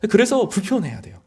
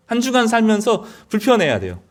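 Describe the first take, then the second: First: Said in the usual way. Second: 한 주간 raised high with weight on 주간; preacher repeats the point, pressing on 주간; emphatic repeat. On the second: Real, not acted. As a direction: lift 주간 and drive the repeat home.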